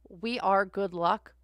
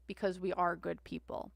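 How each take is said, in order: First: Slow, weighted we ARE good luck; stress on ARE. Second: Said in the usual way. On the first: Shown as a demonstration. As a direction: lean on ARE.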